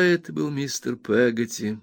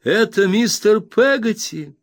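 First: Said in the usual way. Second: Much higher, slow joyful cry; joyful, excited exclamation. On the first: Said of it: "воскликнула, что это мистер Пеготти". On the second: A narrator's reading. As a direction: exclaim it with delighted recognition. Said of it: "радостно, взволнованно воскликнула".

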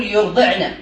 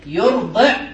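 First: Said in the usual way. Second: "يرضعن" split as yurdi', pause, na; syllable by syllable. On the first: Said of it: "مثلًا أن نقول". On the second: Shown as a demonstration. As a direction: break "يرضعن" before its last syllable. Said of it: "مثلًا أن نقول يرضعن". (نطق "يرضعن" مقطعًا: يرضعـ نَ)

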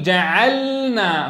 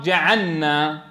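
First: جعلنا very slow, the sukun lam held clear before the nun; teacher's model reading; clear still lam, slow. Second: جعلنا said as جعنّا, lam assimilated; learner's slip; wrong merged lam. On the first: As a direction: spell out جعلنا with a distinct resting lam. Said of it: "فلا يصح أن تدغم في النون". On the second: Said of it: "يسرع اللسان أحيانًا إلى الإدغام". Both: Shown as a demonstration.

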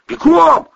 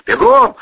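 First: High, loud full yell. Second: Loud, breathless voiceless shout; hoarse yell. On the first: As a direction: scream the order. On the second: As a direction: rasp out the order. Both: Acted. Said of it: "орал Протасов".

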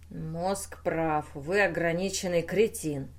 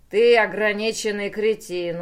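First: Subdued, constricted delivery; choked voice. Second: Loud, forceful abuse; scornful insult. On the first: Pateral accuses the inventor, in a choked voice. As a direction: hold it back in the throat. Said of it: "сдавленным голосом произнёс Патерал". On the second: The brain abuses its creator in a quarrel, scornful. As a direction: throw it out loudly with contempt. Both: A narrator's reading.

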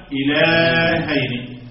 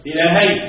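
First: "إلهين" chanted very slowly, long held vowel; drawn-out chant on "إلهين"; verse recitation. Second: Said in the usual way. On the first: Shown as a demonstration. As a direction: stretch the middle of "إلهين" as in recitation. Recites the word within its verse.

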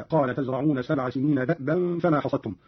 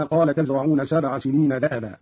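First: "دأبا" as da'ban, glottal stop with no vowel; vowelless hamza. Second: Said in the usual way. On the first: Shown as a demonstration. Teacher showing Qalun's reading, "دأبا" said da'-ban. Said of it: "بإسكان الهمز هكذا". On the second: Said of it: "قرأ قالون بإسكان الهمز".

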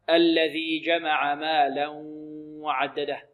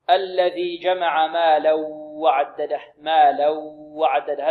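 First: Slow recitation of مالا وعدده with a clear nasal ghunna on the merged tanween; correct recitation with ghunna. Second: Slow recitation of مالا وعدده merging the tanween into the و with no nasal sound; wrong recitation. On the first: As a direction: let the sound pass through the nose before وعدده. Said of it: "النطق الصحيح؟ هكذا". (تلاوة صحيحة بإدغام بغنة) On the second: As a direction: recite it the common wrong way, all from the mouth and no ghunna. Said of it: "هذا الخطأ". (تلاوة خاطئة بإدغام بغير غنة) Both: Shown as a demonstration.

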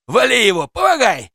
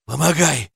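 First: High, loud yell in a fight; urgent shouting. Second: Rasped call for help at usual pitch; hoarse croak. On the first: Policeman calling for help in a scuffle, urgent shouting. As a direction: shout for backup, rising in pitch. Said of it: "закричал полицейский". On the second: Narrator asking the policeman for help, hoarse croak. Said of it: "прохрипел я полицейскому". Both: A narrator's reading.

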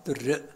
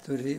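First: درئ closed on a glottal stop; with final hamza. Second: دري with u after the d and no glottal stop; no final hamza. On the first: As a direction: say درئ as durri', cutting the end with a hamza. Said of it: "في قراءة بالهمز". (درئ بهمزة في الآخر) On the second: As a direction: say دري as durri, ending on an open long i. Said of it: "مرفوعة الدال لا تهمز". (دري بضم الدال بلا همز) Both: Shown as a demonstration.

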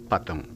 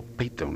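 First: "Patton" said with an a in the first syllable; first guess at the name "Patton"; tentative pronunciation. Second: "Peyton" said with an ey diphthong first; unsure second guess at the name "Peyton"; alternative pronunciation. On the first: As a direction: say "Patton" as spelt, with an open a. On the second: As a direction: say "Peyton" softly, rhyming its start with "pay". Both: Shown as a demonstration. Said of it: "no sé cómo se pronuncia".

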